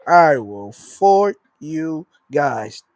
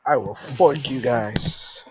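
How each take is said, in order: First: Even slower, spaced-out mock menace; mock threat. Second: Slow, drawn-out mock menace; mock threat. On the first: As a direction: stretch every word like a cartoon villain. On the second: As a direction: threaten them slowly, tongue in cheek. Mock threat to weather channel.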